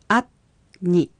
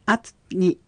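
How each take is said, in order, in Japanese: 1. ゆっくり丁寧に発音されています。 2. 普通の速さで、なめらかに発音されています。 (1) "ゆっくり発音してみましょう" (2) "続けて発音しましょう"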